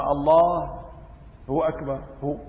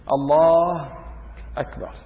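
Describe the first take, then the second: First: "الله" then a gap and "هو أكبر", halting; wrong pause with filler. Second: Said in the usual way. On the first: Shown as a demonstration. Teacher shows the wrong takbir with a halting "هو" filler. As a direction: stop after "الله" and fill the gap with "هو". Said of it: "أما". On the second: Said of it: "هيك بده يقول".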